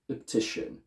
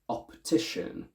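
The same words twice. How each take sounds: First: The first syllable has a schwa. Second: The first syllable has a full vowel. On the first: The speaker calls it wrong. "not optician" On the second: The speaker calls it right. "We say optician"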